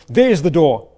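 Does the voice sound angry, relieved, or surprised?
angry. It is said with an angry tone. The listener is being told to leave. "arguing and angry with someone"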